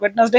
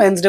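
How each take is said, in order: First: "वेडनेसडे" as wed-nes-day, three syllables; everyday mispronunciation. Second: "वेडनेसडे" as two syllables, WENZ-day; correct pronunciation. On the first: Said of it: "वेडनेसडे ही बोलते हैं". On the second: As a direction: say "वेडनेसडे" without its first d. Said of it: "हम खुद ही गलत सलत बोलते". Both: Shown as a demonstration.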